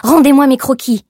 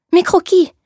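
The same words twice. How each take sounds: First: Much louder, higher, forceful fall on Rendez-moi; angry demand. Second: Much higher and louder, shocked exclamation; gasping out mes croquis in alarm, pitched high; alarmed cry. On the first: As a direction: command it furiously, Rendez-moi hit hard. Demanding her sketches back. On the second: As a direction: seamstress crying out on seeing her sketches, high and loud. Her sketches found by the clerk. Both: A narrator's reading.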